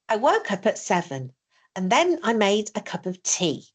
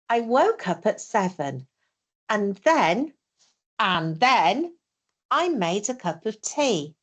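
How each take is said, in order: First: It is said fast without pauses. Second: It is said slowly with pauses.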